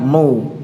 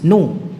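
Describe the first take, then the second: First: The syllable is pronounced thick and heavy. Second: The syllable is pronounced thin and light. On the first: The speaker calls it wrong. "bukan no, no tidak" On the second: The speaker calls it right. "nu tipis"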